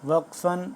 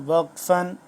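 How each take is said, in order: No difference in how they are said.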